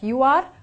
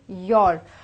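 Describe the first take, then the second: First: It is said as two separate words. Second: It is said as one contracted word. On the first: The speaker calls it wrong. "we don't say them as two separate words like you are" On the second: The speaker calls it right. "We say your"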